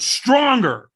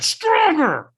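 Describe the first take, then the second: First: A coach barking for more effort; loud demand. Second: A full scream, much higher and louder. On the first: Firewalk trainer pushing him to yell, loud and high. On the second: Trainer screaming at him at the head of the fire lane, full scream. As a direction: scream it at him like a drill coach who has lost patience. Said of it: "So he screamed at me". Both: Retold or imitated.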